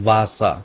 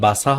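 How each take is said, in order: First: The word begins with a sound between b and v. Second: The word begins with a plain hard b sound. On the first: The speaker calls it right. "এটা ব আর ভয়ের মাঝখানে" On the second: The speaker calls it wrong. "বাসা হবে না"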